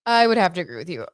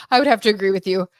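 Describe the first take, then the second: First: Said in the usual way. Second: Laughing through the words, quick and louder. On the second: Real, not acted. Laughing agreement with a viewer's comment. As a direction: agree with a real laugh spilling over.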